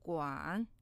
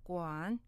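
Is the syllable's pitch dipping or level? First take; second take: dipping; dipping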